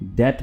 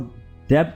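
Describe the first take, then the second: First: The b sound is silent in the middle. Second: The b sound is pronounced in the middle. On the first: The speaker calls it right. "इसमें बी pronounce नहीं होगा, बी silent है" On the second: The speaker calls it wrong. "डेब्ट नहीं"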